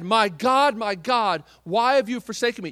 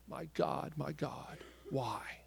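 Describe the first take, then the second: First: Loud, pleading cry to God; anguished cry. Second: The cry turned into a hushed whisper. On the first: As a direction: cry it out as the forsaken Christ. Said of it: "When he said". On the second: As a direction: breathe it out, almost silent. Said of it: "he screamed". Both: Retold or imitated.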